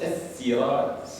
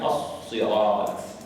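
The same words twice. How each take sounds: First: The s is a light, plain sound. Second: The s is a heavy, emphatic sound.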